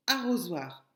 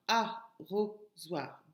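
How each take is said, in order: First: Said in the usual way. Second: "arrosoir" slowly split into a, ro, zoir; syllable by syllable. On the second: Shown as a demonstration. Teacher counting syllables for pupils, "arrosoir" broken into beats. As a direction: leave gaps between the three syllables of "arrosoir". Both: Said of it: "donc trois syllabes".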